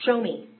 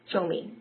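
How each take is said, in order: First: Higher and louder, pressing to be shown; eager plea. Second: Said in the usual way. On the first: Retold or imitated. Newcomer begging to be taken to a meeting, eager and pressing. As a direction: urge him, keen and insistent. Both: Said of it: "And I said".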